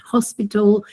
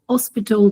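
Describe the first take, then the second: First: The word has a mainstream English pronunciation. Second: The word has an Aboriginal English pronunciation. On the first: "rather than hospital" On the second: "saying things like hospital"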